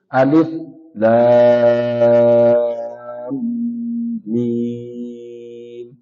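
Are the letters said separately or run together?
separately. Each letter is said slowly with breaks between. The speaker calls it right. "harus diputus sedikit ... Harus pelan, terputus satu huruf dengan huruf yang lainnya"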